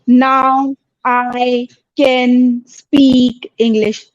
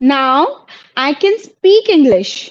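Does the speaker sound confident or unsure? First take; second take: unsure; confident. First: It is said weakly, without confidence. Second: It is said firmly, with confidence. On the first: The speaker calls it wrong. "आप ऐसे नहीं बोलेंगे इसे, not like this" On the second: The speaker calls it right. "ध्यान से सुनो मैं कैसे बोल रही हूँ।"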